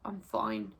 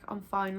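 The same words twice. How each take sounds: First: It sounds sulky and passive-aggressive. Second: It sounds curt and irritated. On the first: The speaker is not fine and wants an apology. "I definitely didn't mean I was fine" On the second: The speaker wants to stop being asked. "Like stop bothering me"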